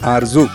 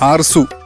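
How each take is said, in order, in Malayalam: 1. നടുവിലെ വ്യഞ്ജനം മൂളുന്ന z ശബ്ദമാണ്. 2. നടുവിലെ വ്യഞ്ജനം ചീറുന്ന s ശബ്ദമാണ്.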